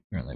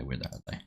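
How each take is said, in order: First: Said in the usual way. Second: Much softer, lower mumble under breath; muttered to self. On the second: Real, not acted. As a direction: mutter it to yourself while searching. Searching patch notes, repeats.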